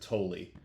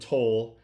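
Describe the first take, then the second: First: The name is said as two syllables. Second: The name is said as one syllable. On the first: The speaker calls it right. "they definitely pronounce it Tolley" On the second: The speaker calls it wrong. "I keep calling him Toll"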